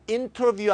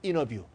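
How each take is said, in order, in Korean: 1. n 다음의 t는 분명히 발음돼요. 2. n 다음의 t는 탈락해요. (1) "아니고" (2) "N 다음에 T 발음 죽는"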